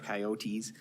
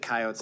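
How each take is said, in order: First: Coyotes is said a non-South Dakota way. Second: Coyotes is said the speaker's South Dakota way.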